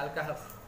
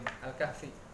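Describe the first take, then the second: First: The name ends on the consonant f. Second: The name ends with an added short i vowel. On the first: "maka kita sebutnya Al-Kahf" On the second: "kenapa dibaca kasroh?"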